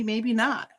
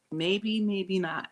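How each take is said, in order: First: Said in the usual way. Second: Maybe, maybe not stretched slow and soft; drawn-out musing. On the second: Real, not acted. Musing to viewers, slow and drawn out. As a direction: let it trail slowly, unsure.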